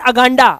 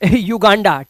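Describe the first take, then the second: First: The word begins with a short 'uh' sound. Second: The word begins with a 'yoo' sound. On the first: The speaker calls it wrong. "Not अगांडा" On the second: The speaker calls it right.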